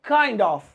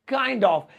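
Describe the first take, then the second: The two takes are said the same way.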